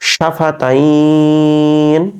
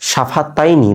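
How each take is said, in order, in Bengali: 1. শব্দটি একটি ব্যঞ্জনধ্বনি দিয়ে শেষ হয়, টেনে উচ্চারণ করা হয়। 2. শব্দটি একটি শেষ স্বরধ্বনি দিয়ে শেষ হয়।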